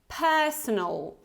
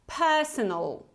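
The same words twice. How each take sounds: The two takes are said the same way.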